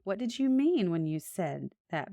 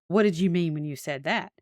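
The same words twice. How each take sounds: First: The question sounds open and genuinely curious. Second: The question sounds sharp and accusing. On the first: The asker sincerely wants to understand. The speaker calls it right. "be curious" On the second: The asker is blaming the other person. The speaker calls it wrong. "But not"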